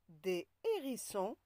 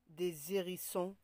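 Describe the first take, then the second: First: No z sound links des to hérissons. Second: A z sound links des to hérissons. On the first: The speaker calls it right. "On dit" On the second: The speaker calls it wrong. "On ne dit pas"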